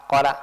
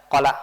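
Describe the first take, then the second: Both takes have the same delivery.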